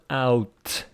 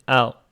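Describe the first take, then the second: First: The T sound is strong and clear. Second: The T sound is soft and weak. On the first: The speaker calls it wrong. "this one is not out" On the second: The speaker calls it right. "It is out. ... This T is not strongly pronounced"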